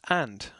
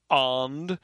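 First: The vowel is short. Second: The vowel is drawn out long. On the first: The speaker calls it right. "it's just and. The short version" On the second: The speaker calls it wrong. "this is not and"

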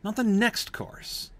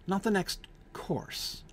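First: The word 'next' is stressed. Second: The word 'course' is stressed. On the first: "the first time he stresses the word next" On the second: "you shift the stress to the last word"

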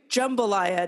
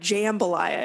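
First: The first vowel sounds like a U. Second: The first vowel sounds like an A. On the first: The speaker calls it right. "You said it correctly too" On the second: The speaker calls it wrong. "not jambalaya"

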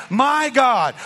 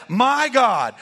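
The two takes are said the same way.

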